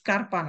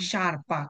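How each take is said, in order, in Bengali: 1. শব্দটি sk ধ্বনি দিয়ে শুরু হয়। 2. শব্দটি sh ধ্বনি দিয়ে শুরু হয়। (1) "না এটা স্কারপা না" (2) "এটা হচ্ছে কি শারপা"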